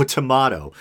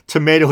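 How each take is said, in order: First: "tomato" with middle syllable like "mah"; broad-a pronunciation. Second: "Tomato" with middle syllable like "may"; long-a pronunciation. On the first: Host joking about two pronunciations, "tomato" as tuh-MAH-toh. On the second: Host joking about two pronunciations, "Tomato" as tuh-MAY-toh. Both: Shown as a demonstration. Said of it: "or is it pedophilia or pedophilia".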